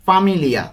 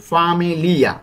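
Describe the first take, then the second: First: Said in the usual way. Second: "ফামিলিয়া" stretched out, syllable by syllable; careful pronunciation. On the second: Shown as a demonstration. Teacher asks learners to note pronunciation, careful drawn-out demonstration. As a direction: sound out "ফামিলিয়া" with lengthened vowels. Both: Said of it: "উচ্চারণ কিন্তু খেয়াল করব".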